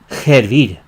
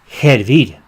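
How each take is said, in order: First: The word starts with a breathy h sound. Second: The same.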